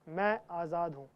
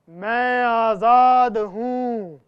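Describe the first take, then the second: First: It is said softly and calmly. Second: It is said at a medium, louder volume.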